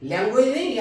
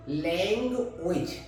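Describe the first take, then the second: First: लैंग्वेज said with a full "wa" glide, marked wrong. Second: लैंग्वेज said slowly, clean "lengvij"; correct pronunciation. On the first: Teacher shows students the wrong way, mock mispronunciation. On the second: Teacher models the word for students, slow careful pronunciation. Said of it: "लैंग्वेज means भाषा". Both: Shown as a demonstration.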